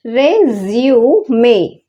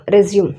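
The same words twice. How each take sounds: First: రెజ్యూమే slow, with a clear final e; correct pronunciation. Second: రెజ్యూమ్ ending flat on m, no final vowel; wrong pronunciation. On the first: Teacher slowly modelling the correct noun resume, final e. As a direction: draw out రెజ్యూమే and finish on e. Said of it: "రెజ్యూమే అని పలకాలి". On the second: Teacher showing the common mistake with resume, ending on m. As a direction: say రెజ్యూమ్ the way many people wrongly do. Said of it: "రెజ్యూమ్ కాదది". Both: Shown as a demonstration.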